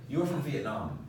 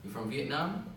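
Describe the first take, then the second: First: "You are from Vietnam" flat, falling at the end; flat statement. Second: "You're from Vietnam?" rising up on Vietnam; rising question. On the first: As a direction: say it as a plain statement, no rise. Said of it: "just flat". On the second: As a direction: lift the voice at the end to ask. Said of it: "you raise your voice to show it's the question". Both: Shown as a demonstration.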